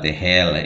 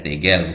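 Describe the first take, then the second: First: The middle consonant is an h sound. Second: The middle consonant is a hard g sound. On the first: The speaker calls it wrong. "bukan tehel" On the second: The speaker calls it right. "dibaca tegel"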